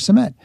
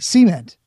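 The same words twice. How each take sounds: First: It is said the Northern way. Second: It is said the Southern way.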